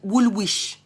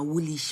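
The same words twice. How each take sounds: First: Every letter of the name is pronounced. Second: The name is said in a shortened form. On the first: The speaker sounds like a newcomer. The speaker calls it wrong. "I used to say wool wool wool Woolwich" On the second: The speaker sounds like a local. The speaker calls it right. "they correct me saying na Woolwich"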